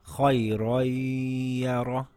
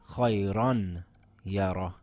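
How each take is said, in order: First: The noon merges into a ya held two counts. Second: The noon is pronounced clearly before the ya. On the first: The speaker calls it right. "we drop the noon and merge it by holding it for two counts. And now it reads" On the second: The speaker calls it wrong. "and not"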